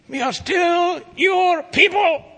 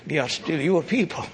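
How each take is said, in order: First: High, slow, loud triumphant shout; shouted proclamation. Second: Said in the usual way. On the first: Shown as a demonstration. Preacher shouting the people's hope back at the congregation, high slow triumphant shout. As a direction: proclaim it with full joy. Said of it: "repeated with a shout". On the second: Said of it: "same words repeated louder".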